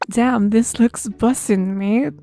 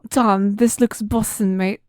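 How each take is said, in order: First: It is said in the speaker's usual accent. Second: It is said in a put-on British accent.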